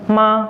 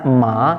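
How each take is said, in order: First: The pitch stays level throughout. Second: The pitch falls and then rises again. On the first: "nada datar" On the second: "jadi gini"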